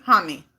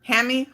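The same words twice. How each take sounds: First: "Hammy" said HAH-mee, with an open ah, falling; "Hammy" as HAH-mee, lower and settled; trying other pronunciation. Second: "Hammy" with a flat a as in ham, rising; "Hammy" as HAM-ee, questioning; trying one pronunciation. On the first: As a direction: say "Hammy" with ah as in father. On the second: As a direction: ask "Hammy" like the word ham plus ee. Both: Shown as a demonstration. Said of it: "I don't know how to pronounce it".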